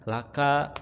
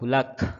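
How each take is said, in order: First: The word ends with a final vowel sound. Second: The final vowel is dropped, ending on a consonant.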